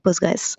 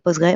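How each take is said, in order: First: The name ends with a final s sound. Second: The name ends without a final s sound. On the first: The speaker calls it right. "on dit Postgres" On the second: The speaker calls it wrong. "on dit pas Postgre"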